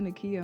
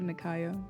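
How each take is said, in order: First: The name is said as Nakia. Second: The name is said as Nakaya. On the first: The speaker calls it wrong. "when people be like, "Oh, Nakia," I'm like, "No, there's an extra A."" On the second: The speaker calls it right. "I like Nakaya"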